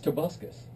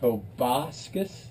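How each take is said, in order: First: The middle syllable has the vowel of 'bus'. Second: The middle syllable has the vowel of 'bass'. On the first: The speaker calls it right. "It's Tobuscus" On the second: The speaker calls it wrong.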